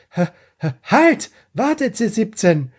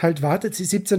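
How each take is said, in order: First: Mock shout. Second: Said in the usual way. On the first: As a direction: yell it after him to stop. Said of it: "wo der Krillin noch zuschreit". (höher, lauter Ruf: halt, warte) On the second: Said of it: "da schreit er nicht".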